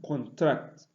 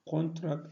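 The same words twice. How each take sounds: First: The stress is on the second syllable. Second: The stress is on the first syllable. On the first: It is used as a verb. "on the second when used as verb" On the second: It is used as a noun. "stressed on the first syllable when used as noun"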